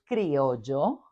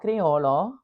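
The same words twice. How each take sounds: First: The double L is said like a Y. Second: The double L is said like a plain L. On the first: The speaker calls it right. "they know it's criollo bread. It has, it has a double L" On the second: The speaker calls it wrong. "it's not criollo"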